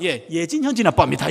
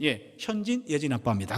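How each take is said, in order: First: 예진 said first, louder, stressed; louder phone greeting that puts 예진 first; daughter-first correction. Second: Said in the usual way. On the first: Retold or imitated. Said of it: "왜 언니부터 말해?". (예진을 먼저 힘주어 크게 말하기) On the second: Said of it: "어느 날은 "왜 언니부터 말해?".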